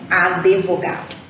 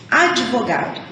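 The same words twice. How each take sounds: First: An extra vowel is added after the d. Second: The d is said without a following vowel. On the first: The speaker calls it wrong. "e não advogado" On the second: The speaker calls it right. "Nós falamos advogado"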